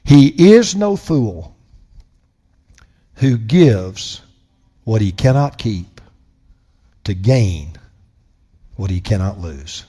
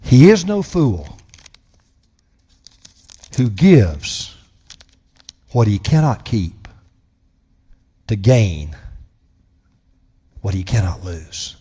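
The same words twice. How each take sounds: First: Slow, soft, each phrase left hanging; very slowly. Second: Slow and soft, long pauses between phrases; slow repeat. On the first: Preacher reading a quote slowly to his congregation, soft and slow. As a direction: read it slowly so every word sinks in. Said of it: "I'm gonna read it very slowly". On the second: Preacher repeating a quote so it lingers, slow and soft. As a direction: say it again and let it linger. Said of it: "let that linger in the air". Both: Shown as a demonstration.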